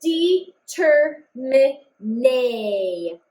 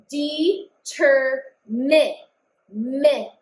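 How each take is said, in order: First: Determine drawn out slowly, then nay on its own; sounding out syllables. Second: Determine stretched slowly, then mi isolated; sounding out syllables. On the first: Teacher sounds out the next syllable to spell it. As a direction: stretch the word and pull out the next sound. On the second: Teacher sounds out the word while writing it. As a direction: drag the word out to find the next sound. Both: Shown as a demonstration. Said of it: "I'm just writing the sounds that I hear".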